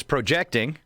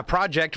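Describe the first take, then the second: First: "projecting" as pro-JECT-ing; stress on second syllable. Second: "project" as PROJ-ect; stress on first syllable. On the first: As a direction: hit the middle syllable of "projecting". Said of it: "take the second syllable and accentuate that". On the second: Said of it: "pronounce the first syllable the way I did". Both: Shown as a demonstration.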